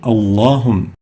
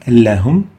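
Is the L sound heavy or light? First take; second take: heavy; light. First: The L sound is thick and heavy. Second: The L sound is thin and light. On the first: The speaker calls it right. "the lam of Allahum has to have tafkhim" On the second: The speaker calls it wrong. "We don't say Allahum"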